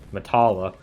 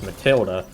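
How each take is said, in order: First: The name is said without a 'd' sound. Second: The name is said with a 'd' sound. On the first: The speaker calls it wrong. "I've always just pronounced it that way" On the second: The speaker calls it right. "oh wait, that's Matilda"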